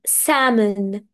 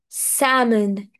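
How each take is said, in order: Both takes have the same delivery.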